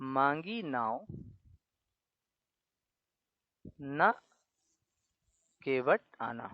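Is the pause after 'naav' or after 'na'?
after naav. The pause falls after the word naav. The boat was asked for; the boatman should not come. "यहाँ पर कह रहा है मांगी नाव। ... ना केवट आना"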